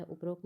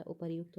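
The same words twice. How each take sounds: First: उपरोक्त as u-pa-rokt, shown as the rejected form; wrong form said. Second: उपर्युक्त as u-par-yukt with the y sound; correct form said. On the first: Teacher showing students the wrong form उपरोक्त. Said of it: "उपरोक्त नहीं होता है". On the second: Teacher giving students the correct form उपर्युक्त. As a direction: say उपर्युक्त carefully as the right version. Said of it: "उपर्युक्त होता है". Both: Shown as a demonstration.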